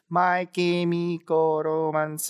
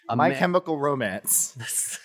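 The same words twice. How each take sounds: First: It is said with Japanese-style pronunciation. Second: It is said with ordinary English pronunciation.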